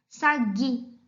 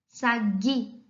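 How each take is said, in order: First: The u after the g is silent. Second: The u after the g is silent.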